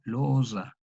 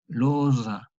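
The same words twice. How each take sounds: First: "Loza" with a plain s, losa; "Loza" said the modern way, losa; voiceless s. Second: "Loza" with a buzzing voiced z, loza; "Loza" with a voiced dz, Italian style. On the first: Teacher giving the modern reading of "Loza". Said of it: "la transcripción de S". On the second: Teacher demonstrating the old voiced z in "Loza". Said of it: "sonora de S". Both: Shown as a demonstration.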